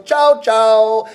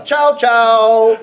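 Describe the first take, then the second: First: "Chow, chow" tossed off lightly, a breezy no-no; light double chow. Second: Doorbell chow. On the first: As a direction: wave it away lightly with "Chow, chow". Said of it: "If you're saying a little bit lightly". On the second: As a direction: ring it out like a doorbell, laughing. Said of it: "a little bit like a doorbell". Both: Shown as a demonstration.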